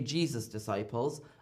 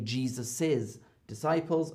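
First: Jesus is said with no extra syllable. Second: Jesus is said with an extra 'iz' syllable. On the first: The speaker calls it wrong. "I don't say Jesus' disciples" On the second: The speaker calls it right. "I say Jesus's disciples"

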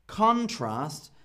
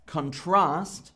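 First: The stress is on the first syllable. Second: The stress is on the second syllable. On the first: It is a noun: a clear difference between things. "a noun usually has the stress on the first bit of a word, and here it is a noun" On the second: It is a verb: to compare things. "So contrast means to compare"

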